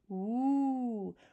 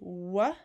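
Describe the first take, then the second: First: The sound ends in a rounded 'oo' vowel. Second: The sound ends in a short open 'uh' vowel. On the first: The speaker calls it right. "it says woo" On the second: The speaker calls it wrong. "W does not say wha"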